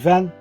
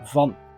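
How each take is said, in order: First: The word has an English-sounding vowel. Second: The word has a Dutch-sounding vowel. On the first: "In English you would say van" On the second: "in Dutch we say van"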